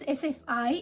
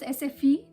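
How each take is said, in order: First: The last letter is said like 'eye'. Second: The last letter is said like 'ee'. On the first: "it's S F I if you spell it" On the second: "I is pronounced as E, so it becomes S F E"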